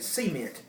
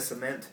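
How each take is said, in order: First: The stress is on the first syllable. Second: The stress is on the second syllable. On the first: This is how Southerners say it. "Southerners typically put stress on the first syllable. They'll say" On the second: This is the usual non-Southern way. "instead of"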